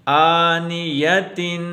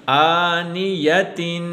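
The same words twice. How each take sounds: The two takes are said the same way.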